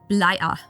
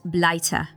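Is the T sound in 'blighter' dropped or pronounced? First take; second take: dropped; pronounced. First: The T sound in the middle is dropped. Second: The T sound in the middle is pronounced. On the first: "the word blighter loses the T sound as a characteristic feature of the Cockney accent. That's why you hear blighter" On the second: "not blighter"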